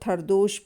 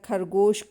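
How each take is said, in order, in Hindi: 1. बीच का व्यंजन d ध्वनि है। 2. बीच का व्यंजन g ध्वनि है। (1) "खरदोश बोलना" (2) "खरगोश को"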